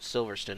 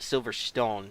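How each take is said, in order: First: The name is said with the British pronunciation. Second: The name is said just as it is written. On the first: This is how people in the UK say it. "they pronounce it Silverstone in the U K" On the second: This is how the speaker would naturally say it. "I want to call it Silverstone, spelling it"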